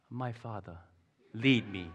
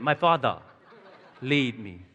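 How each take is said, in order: First: Softly voiced imitation of a trusting toddler; hushed, hammed-up toddler's request; toddler's trusting plea. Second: Lightly put-on British accent; playful imitation of a British accent. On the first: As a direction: say it softly, like a mock-solemn little child. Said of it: "the toddler puts ... willingly into your hand and goes". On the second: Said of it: "You know, with a British accent".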